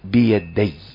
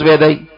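First: The 'y' sound is clearly held and doubled. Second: The 'y' sound is short and not doubled. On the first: The speaker calls it right. "التجديد حرفان لابد تظهر هذا" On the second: The speaker calls it wrong. "لا مش بيدي"

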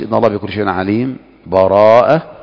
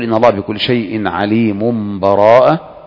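First: A brief silent pause comes without a breath. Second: The words run on with no pause. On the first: "أو أن تسكت" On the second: "أن تصل مباشرة بلا وقف ولا سكت"

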